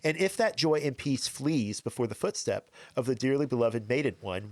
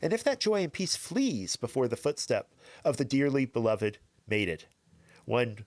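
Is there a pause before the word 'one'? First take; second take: no; yes. First: Mated one is said without a pause. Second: There is a pause between mated and one.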